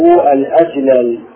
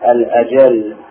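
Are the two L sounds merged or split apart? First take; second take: split; merged. First: The two L sounds are split apart. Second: The two L sounds merge into one. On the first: This form breaks the regular morphological rule. The speaker calls it wrong. "بفك الإدغام" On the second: This form follows the regular morphological rule. The speaker calls it right. "والقياس الأجل بالإدغام"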